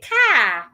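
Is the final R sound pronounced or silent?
silent. The final R sound is not pronounced. "A British person will say car"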